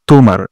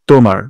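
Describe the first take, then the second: No difference in how they are said.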